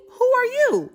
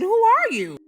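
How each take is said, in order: First: Higher, louder; alarmed demand. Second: Higher, louder; narrator's leaning-in echo. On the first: Retold or imitated. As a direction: demand it sharply. Woman demanding. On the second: Real, not acted. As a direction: demand it again, hooked on the story. Narrator echoes.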